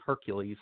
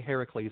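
First: Hercules as HER-kyuh-leez; common pronunciation. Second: Heracles as HAIR-uh-kleez, the ancient way; Greek-style Heracles in three syllables; ancient pronunciation. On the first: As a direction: say Hercules the familiar English way, HER-kyoo-leez. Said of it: "I don't say Hercules". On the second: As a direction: say Heracles with an open first syllable, HEH-ra-kleez. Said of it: "notice I say Heracles". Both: Shown as a demonstration.

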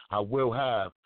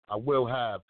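Both takes have the same delivery.

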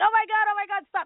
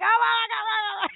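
First: High-pitched pained wail, played for comedy; imitating crying through a painful stretch; mock crying. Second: Very high hammed-up wail of pain; retold agony, shrieked for laughs; mock crying shout. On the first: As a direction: beg her to stop in a hammed-up high cry. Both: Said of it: "and I'd be crying".

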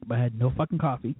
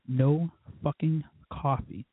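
First: Said in the usual way. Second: "No fucking coffee" dragged out slowly, each word leaned on; slow emphatic repeat. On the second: Real, not acted. Complaining to listeners about running out of coffee, slow heavy stress. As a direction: spell out the grievance word by word, slowly.

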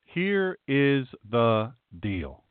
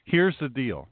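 First: Each word separated, very slow; slow and deliberate. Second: Said in the usual way. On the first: Retold or imitated. Pastor saying what you tell someone in a dispute, slow and deliberate. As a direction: spell it out word by word.

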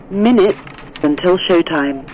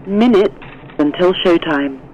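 Both takes have the same delivery.

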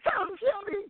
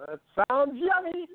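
First: Much higher, squeaked out; silly high-voiced delivery; squeaky high line reading. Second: Bad line reading. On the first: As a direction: pitch it way up like a cartoon. Retake of the scene line. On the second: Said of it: "something wrong there with your de-, delivery there".

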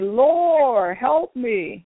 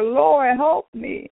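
First: Said in the usual way. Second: Higher, raised cry of Lord, help me; high desperate cry, not shouted; mock scream. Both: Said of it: "I screamed and I said".

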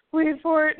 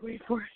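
First: Louder, higher repeat about to burst; building anticipation. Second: Softly retold waiting thought; hushed anticipation. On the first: Retold or imitated. Co-host retelling the wait in the intro, bursting with anticipation. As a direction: punch it up as the giggles break through. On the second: Co-host retelling the quiet moment in the intro, hushed. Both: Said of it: "it got real quiet".

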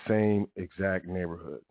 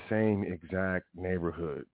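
Both takes have the same delivery.

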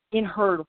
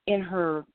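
The two takes are said the same way.

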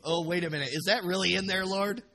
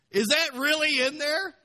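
First: Raised, louder questioning of the Lord; mock disbelief. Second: High, shouted incredulous question; loud mock astonishment. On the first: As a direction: question it with playful astonishment. Acted disbelief at the verse, first take. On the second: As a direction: cry it out in hammed-up disbelief. Acted disbelief, repeated much stronger.

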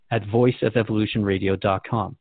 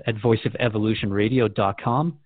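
The two takes are said the same way.

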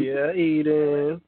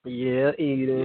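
First: Drawn-out playful voice. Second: Drawn-out hype. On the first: Pretend. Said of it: "echoing hype in another voice". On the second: Real, not acted. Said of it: "hyping Eden to take over".

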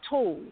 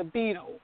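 First: "Tool" for "beetle", first syllable left off; dropped beginning sound. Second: Said in the usual way. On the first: Retold or imitated. Mother imitating her child losing word beginnings, "Tool" for "beetle". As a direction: say only "Tool", the tail end of "beetle". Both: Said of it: "he lost the beginning sound".

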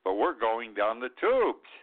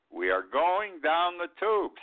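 First: Said in the usual way. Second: "We are going down the tubes" repeated higher and slower, every word weighted; emphatic repeat. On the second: Shown as a demonstration. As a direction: lean hard on "We are going down the tubes", drawing it out.

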